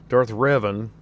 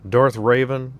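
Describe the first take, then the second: Both takes have the same delivery.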